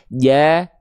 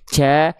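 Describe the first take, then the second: First: The consonant is voiced with no breath escaping. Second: The consonant releases a puff of breath. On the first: The speaker calls it right. "Tapi gimana harusnya? Ja ... Nggak ada percikan-percikan nafasnya" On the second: The speaker calls it wrong. "tidak boleh ada nafas keluar sedikit pun dari huruf jim. Contohnya ca"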